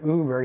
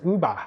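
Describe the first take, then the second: First: The word ends with an "er" sound. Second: The word ends with an "ah" sound. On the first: The usual English pronunciation. "instead of Uber" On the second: A Japanese speaker without the er sound says it. "there's no er sound in, in Japanese, right? So he says, instead of Uber, he says Uba"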